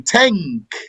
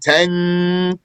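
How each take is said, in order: First: The n is made at the back of the tongue. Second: The n is held long with a nasal hum. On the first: "bring it from the back of your tongue. You say tank" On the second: "If we were to put a ghunna there, we'd be saying tank"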